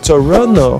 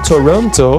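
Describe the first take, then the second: First: The T after the N is dropped. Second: The T after the N is clearly pronounced. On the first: "você vai falar Toronto" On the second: "Em vez de você falar Toronto"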